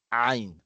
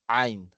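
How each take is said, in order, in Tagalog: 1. Nagsisimula ito sa masikip na tunog mula sa lalamunan. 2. Nagsisimula ito sa masikip na tunog mula sa lalamunan.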